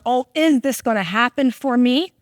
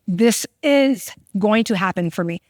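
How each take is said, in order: First: It sounds like an unsure, doubtful question. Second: It sounds like a firm, confident statement.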